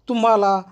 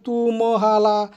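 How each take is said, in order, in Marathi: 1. म आणि ह एकत्र जोडाक्षर म्हणून जोडलेले आहेत. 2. म आणि ह यांच्यामध्ये एक स्वर आहे.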